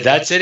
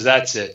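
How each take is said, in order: First: Rising, a bit louder in disbelief; can't believe that's all; disbelieving question. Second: Said in the usual way. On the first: Retold or imitated. Asking the old salesman, mildly amazed: that's it?.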